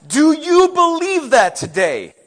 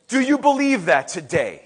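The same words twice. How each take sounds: First: Loud, high, slow question; pressing challenge. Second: Said in the usual way. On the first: Real, not acted. Preacher asks congregation to answer, pressing. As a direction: throw the question out forcefully.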